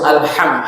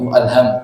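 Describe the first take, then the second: First: The h is a strong, throaty sound. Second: The h is a light, plain breath. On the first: The word then refers to praise. The speaker calls it right. "Tapi harus alham, hak" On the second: The word then refers to worry and distress. The speaker calls it wrong. "Nah, itu alham"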